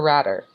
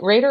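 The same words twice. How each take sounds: First: Rader with a short A, like "radder". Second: Rader with a long A, like "raider". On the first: Host checking guest's surname, Rader said as RAD-er. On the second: Host checking guest's surname, Rader said as RAY-der. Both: Shown as a demonstration. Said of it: "or is it Rader or Rader".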